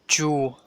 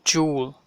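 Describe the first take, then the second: The two takes are said the same way.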